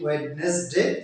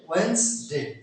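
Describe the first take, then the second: First: Every written syllable of the word is pronounced. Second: The middle syllable is dropped, like 'Wenz-day'. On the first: The speaker calls it wrong. "আমরা অনেকে বলি ওয়েডনেসডে" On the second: The speaker calls it right. "সঠিক উচ্চারণ হবে ওয়েডনেসডে"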